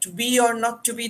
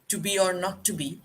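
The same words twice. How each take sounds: First: It is said loudly, almost shouted. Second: It is said quietly, in a low voice. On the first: He is addressing the audience. "he would have to shout it out" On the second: He is talking to himself. "it was spoken in a very low voice"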